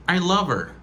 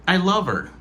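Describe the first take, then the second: The two takes are said the same way.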